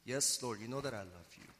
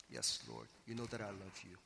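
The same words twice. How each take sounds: First: Said in the usual way. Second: Much lower and softer, hesitant "Yes, Lord"; reluctant quiet answer. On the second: Shown as a demonstration. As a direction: hold back, as if ashamed to say it. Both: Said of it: "Peter reluctantly responding".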